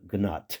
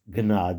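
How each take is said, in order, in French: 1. Le mot se termine par un son t. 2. Le mot se termine par un son voyelle. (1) "le E étant tombé, ... ça donne Gnat, comme si c'était écrit avec un T à la fin" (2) "en allemand normal, comporterait un E, ce serait Gnade"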